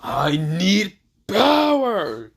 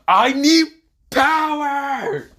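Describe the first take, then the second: First: Slow, drawn-out shout rising high; Virgil. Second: Very high, loud, explosive yell; shouted demand. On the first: Retold or imitated. Game character from Devil May Cry, drawn-out power cry. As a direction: stretch each word, then belt the last one. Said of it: "basically when Virgil says". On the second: Acted. Hero clenching his fist, high shout for power. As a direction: blast it out at the top of your range.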